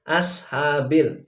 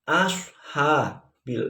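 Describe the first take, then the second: First: The s sound is plain, with relaxed lips. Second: The s sound is emphatic, with lips pushed forward. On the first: The speaker calls it wrong. "bukan ashabil" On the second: The speaker calls it right. "yang betul adalah bi ashabil fil"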